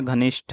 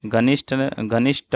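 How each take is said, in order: First: घनिष्ठ ending in breathy "shth"; aspirated ending. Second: घनिष्ठ ending in plain "sht"; no puff on the last t of घनिष्ठ; unaspirated ending. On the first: Teacher correcting the word, घनिष्ठ with aspirated th. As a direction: puff the final th of घनिष्ठ. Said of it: "घनिष्ठ होता है". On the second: Teacher showing the mistake, घनिष्ठ with unaspirated t. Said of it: "नहीं होता है". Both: Shown as a demonstration.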